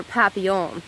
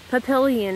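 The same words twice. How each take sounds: First: Papillon said French-style, double L as a y; French pronunciation. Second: Papillion with an English L sound; American pronunciation. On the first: Speaker correcting her own name, papillon in French pronunciation. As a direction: say papillon as the French do, without the L sound. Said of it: "I have to learn proper French pronunciation". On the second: Speaker names her animal self, Papillion with an American L. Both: Shown as a demonstration.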